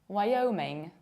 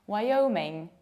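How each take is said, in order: No difference in how they are said.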